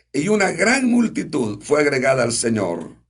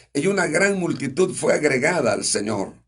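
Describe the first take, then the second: The two takes are said the same way.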